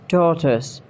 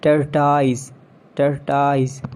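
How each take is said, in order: First: "tortoise" as TAW-tus; short S ending on "tortoise"; British pronunciation. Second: "Tortoise" as TUR-tyze; long I ending "Tortoise"; mispronounced tortoise. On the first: Shown as a demonstration. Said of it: "It's tortoise". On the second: Acted. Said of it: "not tortoise".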